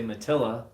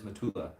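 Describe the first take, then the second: First: The middle syllable sounds like 'till'. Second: The middle syllable sounds like 'too'. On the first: The speaker calls it wrong. "I say Matilla, I just don't say it right" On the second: The speaker calls it right. "But it is Matula"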